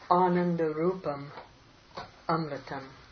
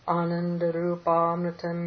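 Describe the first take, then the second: First: The two words are said as separate words. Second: The two words merge into one joined word.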